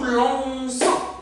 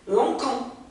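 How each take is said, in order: First: The middle consonant is a soft s sound. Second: The middle consonant is a hard k sound. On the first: The speaker calls it right. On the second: The speaker calls it wrong.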